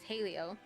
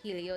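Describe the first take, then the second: First: The first vowel sounds like 'ay'. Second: The first vowel sounds like 'eh'. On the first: The speaker calls it right. "it's halio" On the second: The speaker calls it wrong. "not helio"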